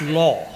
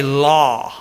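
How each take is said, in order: First: Said in the usual way. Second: "law" drawn out as a careful, awkward attempt; effortful "law". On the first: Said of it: "It's hard for me to say law". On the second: Shown as a demonstration. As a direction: strain to say "law" properly, stretching the vowel. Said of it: "It just doesn't come out right".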